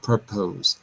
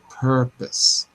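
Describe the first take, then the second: First: The second syllable has a full vowel. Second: The second syllable has a weak uh vowel. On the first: The speaker calls it wrong. "instead of purpose" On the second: The speaker calls it right. "it's always pronounced like an uh in English"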